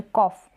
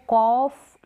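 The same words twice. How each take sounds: First: "कॉफ" with a short o, not stretched; corrected short-vowel "कॉफ". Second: "कॉफ" with the o drawn out long; long vowel, wrong way. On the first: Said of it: "अ का sound आ रहा है वो short". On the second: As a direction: stretch the vowel in "कॉफ" as a mistake to avoid. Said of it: "long नहीं बोल रहे". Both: Shown as a demonstration.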